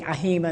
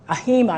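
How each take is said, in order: First: "A H I M A" letter by letter; name each letter separately in "A H I M A"; spelled-out acronym. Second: "ahima" said as one word; acronym as word. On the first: Telling the audience the older usage, "A H I M A" spelled out. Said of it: "instead of A H I M A". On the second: Telling the audience the newer usage, "ahima" as one word. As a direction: run the letters together as the word "ahima". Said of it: "saying ahima instead of A H I M A". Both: Shown as a demonstration.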